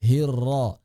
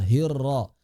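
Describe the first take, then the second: The two takes are said the same way.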